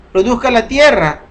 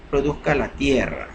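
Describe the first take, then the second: First: Reading out the scripture phrase "produzca la tierra" higher and louder; emphatic reading. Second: Said in the usual way. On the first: Shown as a demonstration. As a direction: proclaim "produzca la tierra" as scripture, raised and loud. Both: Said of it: "y está otra vez la misma palabra".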